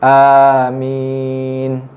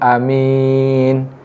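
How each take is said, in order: First: Both vowels are drawn out long. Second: The first vowel is said short. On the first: "A dipanjangkan, min pun dipanjangkan" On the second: "dibaca amin itu dengan bacaan pendek"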